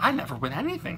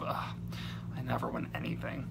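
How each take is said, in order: First: It is said in a surprised tone. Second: It is said in a disappointed, grumpy tone. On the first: The speaker has just won something unexpectedly. "with some kind of a surprise" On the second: The speaker is complaining about always losing. "as if uh, they're disappointed"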